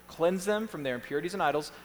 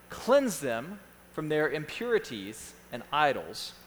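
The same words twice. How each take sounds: First: Said in the usual way. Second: Slow, broken into short phrases; slow dictation. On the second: Real, not acted. Pastor reads a point for note-takers, slowly. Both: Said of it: "I'm gonna read them slowly".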